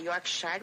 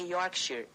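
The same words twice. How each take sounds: First: It has a Brazilian Portuguese pronunciation. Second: It has an English-style pronunciation. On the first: The speaker calls it wrong. "aqui no Brasil a gente fala Yorkshire, mas fala errado" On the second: The speaker calls it right. "É Yorkshire, é isso?"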